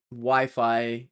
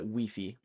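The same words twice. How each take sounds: First: Said in the usual way. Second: Wi-Fi said wee-fee, the French way; light French wee-fee for Wi-Fi; French pronunciation. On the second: Shown as a demonstration. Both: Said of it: "French people from France usually call it Wi-Fi".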